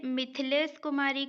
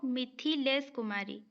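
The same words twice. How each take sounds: First: मिथिलेश Kumari as "mith-les kumari"; मिथिलेश Kumari, first name in two beats; wrong vowel-less th. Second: मिथिलेश Kumari as "mi-thi-les kumari"; मिथिलेश Kumari, first name in three beats; correct short i. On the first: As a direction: drop the i after th in मिथिलेश Kumari. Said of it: "जो थ लिखा है ये गलत है". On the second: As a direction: sound an i after th in मिथिलेश Kumari. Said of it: "थ में छोटी ई लगेगा". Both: Shown as a demonstration.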